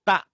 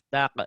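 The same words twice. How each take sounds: First: It ends with a glottal catch like hamzah. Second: It ends with a strong echoing bounce. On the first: "Ada tak. Kayak hamzah di atas" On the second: "Keempatnya tak. Kokolah kubro"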